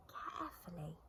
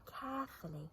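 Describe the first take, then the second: First: Much softer echo of carefully; softly repeated. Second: Said in the usual way. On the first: A narrator's reading. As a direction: hush it down, tiptoeing.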